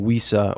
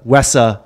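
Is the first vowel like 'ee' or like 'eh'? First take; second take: ee; eh. First: The first vowel sounds like 'ee'. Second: The first vowel sounds like 'eh'. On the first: This is the old habitual way of saying it. The speaker calls it wrong. "I always said WISA" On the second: This is the way it is meant to be said now. The speaker calls it right. "or as I'm told"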